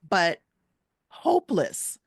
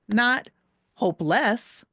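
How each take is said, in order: First: The stress is on the first syllable. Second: The stress is on the second syllable. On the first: The speaker calls it right. "See how the first part is stronger?" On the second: The speaker calls it wrong.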